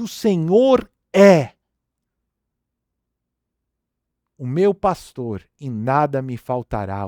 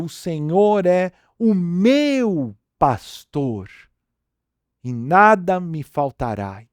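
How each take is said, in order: First: The stress is on "é". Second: The stress is on "meu".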